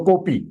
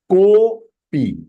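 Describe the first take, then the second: First: Said in the usual way. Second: Kopi with a long drawn-out "ko"; extended vowel. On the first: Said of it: "Without avagraha". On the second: Shown as a demonstration. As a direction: stretch the first syllable of kopi. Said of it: "when it is avagraha over here".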